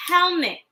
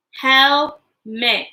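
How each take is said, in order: First: Said in the usual way. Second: HELMET split into two separate beats; broken into syllables. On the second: Shown as a demonstration. Teacher helping children count syllables, Helmet split in two. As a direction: say Helmet in two parts so they can be counted. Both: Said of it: "How many syllables does helmet have".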